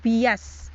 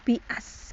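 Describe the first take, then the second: First: The first hamzah is replaced by a y sound. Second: The first hamzah is a clear glottal stop. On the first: "hamzah ula atau hamzah yang pertama dibaca iya buk, e, menjadi bias" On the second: "kalau nomor enam dibaca bias"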